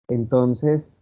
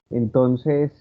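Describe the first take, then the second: The two takes are said the same way.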